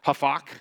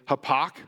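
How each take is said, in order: First: The middle consonant is an f sound. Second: The middle consonant is a p sound. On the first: "If I understand how the Hebrew scholars were pronouncing this word, it's more like hafak" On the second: "looks like it would say hapak"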